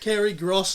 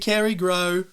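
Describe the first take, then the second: First: The surname ends with an S sound. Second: The surname ends without an S sound. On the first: The speaker calls it wrong. "not Kerry Gross" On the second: The speaker calls it right. "the S is silent"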